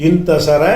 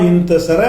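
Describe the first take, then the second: Both takes have the same delivery.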